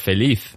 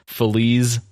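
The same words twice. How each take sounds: First: The word is said with a Spanish pronunciation. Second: The word is said with an English-sounding pronunciation. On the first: This is how Spanish speakers say it. The speaker calls it right. "in Spanish, we pronounce like Feliz" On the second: This imitates how the song's singer says it. The speaker calls it wrong. "he says like Feliz Navidad"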